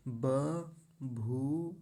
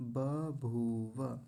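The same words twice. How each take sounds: First: 'बभूव' as ba... bhoo... va; very slow, separated 'बभूव'; broken apart. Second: 'बभूव' linked as ba-bhoo-va; smooth 'बभूव' with full final va; joined up. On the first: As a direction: pause after each syllable of 'बभूव'. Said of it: "अलग-अलग तोड़ लेना चाहिए". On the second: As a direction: join the slow syllables of 'बभूव' without breaks. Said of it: "ऐसा मिला लेंगे". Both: Shown as a demonstration.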